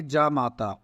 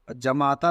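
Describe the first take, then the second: First: जामाता with a long first aa, जा-माता; जामाता spoken as the right form; correct form. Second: जमाता with a short first a, ज-माता; जमाता shown as the error; wrong form. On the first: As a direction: stretch the जा in जामाता. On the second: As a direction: say जमाता quickly as the mistaken form. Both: Shown as a demonstration. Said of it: "जमाता नहीं".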